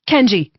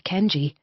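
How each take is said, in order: First: Sharp loud snap, higher; snapped name. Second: Said in the usual way. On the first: Acted. Woman snapping at stubborn wolf mate, loud sharp call. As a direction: bark his name with full dominance. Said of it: "she snapped".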